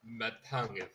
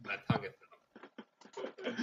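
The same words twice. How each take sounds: First: Said in the usual way. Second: Slow, thick-tongued speech; numbed tongue. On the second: Acted. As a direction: talk like your tongue went numb.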